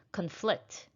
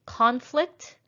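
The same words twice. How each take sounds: First: Conflict with a reduced first syllable, stressed FLICT; stress on second syllable. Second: Conflict with CON higher and full-vowelled; stress on first syllable. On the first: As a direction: lean on the end of conflict, as a verb. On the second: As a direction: punch the start of Conflict, as a noun. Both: Shown as a demonstration. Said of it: "practice shifting the stress".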